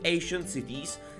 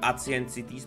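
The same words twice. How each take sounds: First: The name has a more English-like pronunciation. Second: The name has a Czech-accented pronunciation. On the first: The speaker calls it right. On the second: The speaker calls it wrong.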